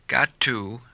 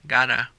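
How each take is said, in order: First: The phrase is said in full. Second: The phrase is reduced to gotta.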